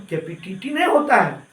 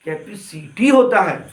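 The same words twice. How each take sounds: First: कैपेसिटी said as कैपिटिटी, the स turned into ट; wrong pronunciation. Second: कैपेसिटी said slowly with a clear स; correct pronunciation. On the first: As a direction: show the mother's mistake on कैपेसिटी. (कैपेसिटी को कैपिटिटी कहकर दिखाना) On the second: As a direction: say कैपेसिटी carefully, correcting her. (कैपेसिटी को धीरे और सही बोलना) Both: Shown as a demonstration. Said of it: "नहीं madam".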